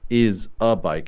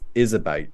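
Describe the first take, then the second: First: Each word is said separately, without linking. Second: The final consonant links into the next vowel. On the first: The speaker calls it wrong. "It's not" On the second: The speaker calls it right. "this final consonant sound with the next vowel sound"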